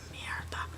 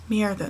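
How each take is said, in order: First: Merida with a Spanish lilt, whispered; Spanish accent. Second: Said in the usual way. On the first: Shown as a demonstration. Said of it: "in a Spanish accent". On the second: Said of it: "I think that's how you say her name".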